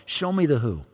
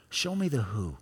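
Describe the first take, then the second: First: Said in the usual way. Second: "Show me the who" dropped much softer, hushed; soft prayer. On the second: Acted. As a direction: pull back into a soft inward prayer. Prayer quoted, repeated softer.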